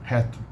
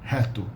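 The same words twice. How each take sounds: Both takes have the same delivery.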